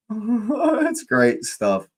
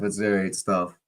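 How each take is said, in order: First: High, slow, giggly repeat; laughing. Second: Said in the usual way. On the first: Real, not acted. Streamer enjoying the group chat, laughing repeat. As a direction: laugh through the words.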